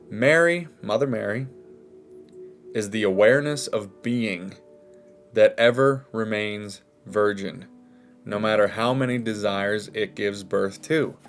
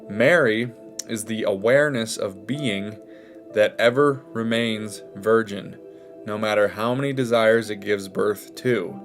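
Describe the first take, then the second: First: It is read slowly. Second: It is read at normal speed.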